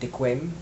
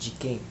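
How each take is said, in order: First: It is said with a non-Brazilian pronunciation. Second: It is said with a Brazilian Portuguese pronunciation. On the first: The speaker calls it wrong. "eu pronunciava de quem como de quem" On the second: The speaker calls it right. "ela me explicou que se pronuncia como ah, de quem"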